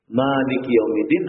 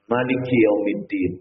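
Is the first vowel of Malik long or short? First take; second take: long; short. First: The first vowel of Malik is drawn out long. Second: The first vowel of Malik is kept short. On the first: "dengan mak tabi'i" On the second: "tanpa mak tabi'i"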